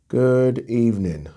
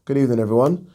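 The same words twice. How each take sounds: First: Slowed down, falling at the end; slow drawn-out greeting. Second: Said in the usual way. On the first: Shown as a demonstration. Host to viewers, a slow drawn-out greeting. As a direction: stretch out the Good evening.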